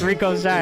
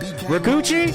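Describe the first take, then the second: First: The name is said as two parts, Rico Shy. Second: The name is said as one word, Rikuchi. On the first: The speaker calls it right. "It's Rico Shy, and I'm so glad I know how to say it now" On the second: The speaker calls it wrong. "I was like, Rikuchi, and it's not Rikuchi"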